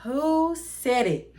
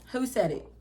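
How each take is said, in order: First: Slow, high, indignant demand. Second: Said in the usual way. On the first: Retold or imitated. New employee hunting the rumor's source, demanding. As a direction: draw the accusation out, pitched up.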